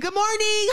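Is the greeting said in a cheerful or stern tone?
cheerful. The greeting sounds cheerful and accommodating. The speaker is trying to make others comfortable. "what is the tone supposed to be?"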